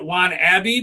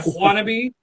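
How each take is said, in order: First: The name begins with a plain w sound. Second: The name begins with a breathy whooshing wh sound. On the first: The speaker calls it wrong. "you may be um, tempted to pronounce that Juan Abbey, but you would be incorrect" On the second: The speaker calls it right. "the ever important, the ever proud whoosh"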